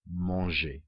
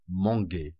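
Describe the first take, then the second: First: The g is soft, as in 'beige'. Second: The g is hard, as in 'go'. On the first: The speaker calls it right. "in actual fact it should be" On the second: The speaker calls it wrong. "It would be"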